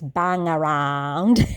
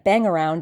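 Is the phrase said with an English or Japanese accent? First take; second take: Japanese; English. First: It is said with a Japanese accent. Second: It is said with a plain English accent.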